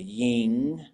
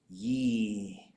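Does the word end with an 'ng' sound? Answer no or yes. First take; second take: yes; no. First: It ends with an 'ng' sound. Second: It ends in a smiled vowel without 'ng'. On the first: The speaker is from inland. "if you're an inland speaker, you're going to say ying. It's going to sound like an N G sound" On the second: The speaker is from the coast. "if you're on the coast, you can go ye, and you have to smile while you say that"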